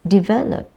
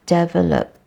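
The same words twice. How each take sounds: First: Develop with di- sound; correct develop. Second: Develop with deh- sound; wrong develop. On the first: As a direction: develop said as di-VEL-op. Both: Shown as a demonstration. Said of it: "It's the E sound and not the air sound".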